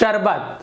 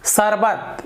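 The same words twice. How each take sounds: First: It begins with a hushing 'sh' sound. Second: It begins with a hissing 's' sound. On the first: The speaker calls it right. "सुनने में अच्छा लगता है" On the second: The speaker calls it wrong. "ये गलत हो गया"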